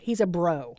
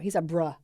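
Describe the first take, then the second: First: The last word ends with an 'oh' vowel. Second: The last word ends with an 'uh' vowel. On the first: This is the older way of saying it. The speaker calls it wrong. "Now we don't say bro anymore" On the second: This is the current way of saying it. The speaker calls it right. "there's no O anymore"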